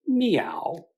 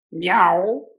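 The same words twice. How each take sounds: First: Whispered cat meow. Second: Louder, higher meow; crying cat meow. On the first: The cat greets Bloom in the kitchen, whispered meow. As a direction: breathe the meow like a sly cat. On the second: The cat answers Bloom's offer of milk, loud meow. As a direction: let the cat cry out for the milk. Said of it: "the cat cried". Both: Acted.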